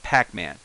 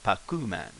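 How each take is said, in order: First: It is said with English pronunciation. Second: It is said with Japanese pronunciation.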